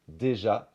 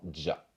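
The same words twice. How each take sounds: First: The first vowel is fully pronounced. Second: The first vowel is dropped. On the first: "se transforme en" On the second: "qui perd son son et"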